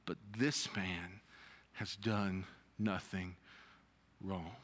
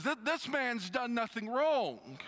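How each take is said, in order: First: Low, hushed and slow, fading out; quiet reading. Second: Sudden realisation. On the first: Acted. Preacher reading the criminal's words, hushed. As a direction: let the words sink down to almost nothing. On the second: Retold or imitated. Criminal suddenly defending Jesus, raised voice. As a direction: blurt it as it dawns on him. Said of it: "all of a sudden he goes".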